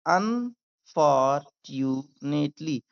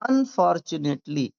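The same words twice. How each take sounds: First: "unfortunately" very slowly, un, for, tu, nately; syllable by syllable. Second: Said in the usual way. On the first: Shown as a demonstration. Teacher getting learners to repeat, syllable by syllable. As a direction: break "unfortunately" into drawn-out pieces. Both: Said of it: "मेरे साथ भी बोलिए".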